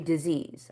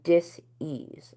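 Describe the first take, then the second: First: The word is said smoothly as one unit. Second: The word is split into dis and ease. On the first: "I don't say disease" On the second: "I say dis-ease, like being uncomfortable"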